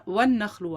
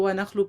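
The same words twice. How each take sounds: First: وَالنَّخْلُ with the doubled nun; correct reading. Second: وَنَخْلُ without the al; wrong reading. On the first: Teacher contrasting with the wrong form, doubled nun. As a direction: stress the shadda in وَالنَّخْلُ. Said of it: "نخلن اور ون". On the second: Teacher showing the common mistake, وَنَخْلُ without al. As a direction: say وَنَخْلُ dropping the الْ. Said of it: "آپ اس کو وَنَخْلُ پڑھ دیتے ہیں". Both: Shown as a demonstration.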